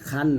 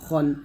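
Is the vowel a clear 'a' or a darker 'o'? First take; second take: clear 'a'; darker 'o'. First: The vowel is a clear, open 'a'. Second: The vowel is a darker, 'o'-like sound. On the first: The speaker calls it wrong. "খান না খন" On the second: The speaker calls it right. "খ দুই জবর খন বলবেন"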